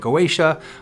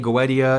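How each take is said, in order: First: It uses the pronunciation heard in America. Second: It uses the pronunciation heard in Europe. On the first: "here in America they say Goetia" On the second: "in Europe they say Goetia"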